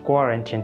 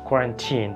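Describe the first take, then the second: Both takes have the same delivery.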